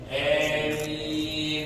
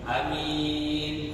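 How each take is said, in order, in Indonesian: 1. Vokal pertama condong ke bunyi e. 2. Vokal pertama pendek, m tunggal. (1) "nggak terlalu a, tapi dimiringin sedikit" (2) "dengan dibaca pendek"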